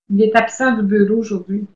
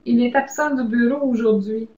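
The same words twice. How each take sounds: First: It sounds annoyed, with a falling end. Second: It sounds confident, smiling and lively. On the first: The caller is a bother. The speaker calls it wrong. "vous semble dérangé" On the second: The caller is welcome. The speaker calls it right. "sur un ton assuré"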